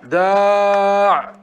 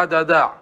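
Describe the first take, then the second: First: داع held long and slow as "daaʕ", ending on the ʕ with no vowel; slow demo of داع without the final ya; pausal form with dropped ya. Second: Said in the usual way. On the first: Shown as a demonstration. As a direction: drag out داع, stopping on the bare consonant. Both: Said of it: "نقول عند الوقف عليه".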